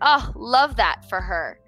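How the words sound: It is said sarcastically, meaning the opposite.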